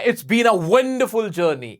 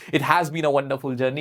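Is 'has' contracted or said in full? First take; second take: contracted; full. First: The word has is shortened into it's. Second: The word has is said fully and separately. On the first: "पूरा हैज been बोलने की भी जरूरत नहीं है" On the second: "अगर हैज been बोलना चाहते हो, अच्छा लग रहा है, तो हैज बीन बोल दो"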